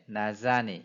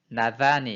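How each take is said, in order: First: The middle consonant is a buzzing 'z' sound. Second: The middle consonant is a soft 'th' sound. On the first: "나자니 이렇게 발음을 하는 거죠" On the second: "나다니 이렇게 해야 되는데"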